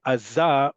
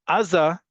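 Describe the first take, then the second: First: "Aza" landing firmly on the final za; stress on last syllable. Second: "Aza" stressed on the opening A; stress on first syllable. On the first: Teacher showing the directional form, last-syllable stress on "Aza". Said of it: "the default is on the last syllable". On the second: Teacher marking the word as foreign in origin, first-syllable stress on "Aza". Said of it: "emphasize that it is not a Hebrew word". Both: Shown as a demonstration.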